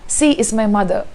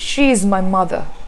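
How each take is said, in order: First: The first word begins with an s sound. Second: The first word begins with an sh sound. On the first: The speaker calls it wrong. "There are a lot of people who say sea" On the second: The speaker calls it right. "It's actually"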